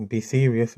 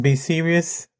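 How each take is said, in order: First: Serious. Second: Light, lifted sing-song take; playful. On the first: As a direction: settle down and mean it. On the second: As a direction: say it teasingly, not meaning it yet. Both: Shown as a demonstration. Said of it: "let's be serious".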